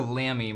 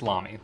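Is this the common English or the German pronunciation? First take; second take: common English; German. First: It uses the common English-style pronunciation. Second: It uses the German-style pronunciation. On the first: This is how most people say it. The speaker calls it wrong. "I hear Lamy more than anything" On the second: This is how it is said in the brand's home country. The speaker calls it right. "But it's Lamy. That's what they say in Germany"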